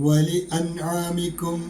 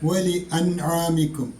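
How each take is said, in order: No difference in how they are said.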